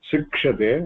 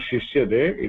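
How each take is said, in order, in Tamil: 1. இந்த சொல் ksh ஒலியுடன் சொல்லப்படுகிறது. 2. இந்த சொல் வெறும் sh ஒலியுடன் சொல்லப்படுகிறது. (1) "it is शिक्ष्यते" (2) "it is not shishyate"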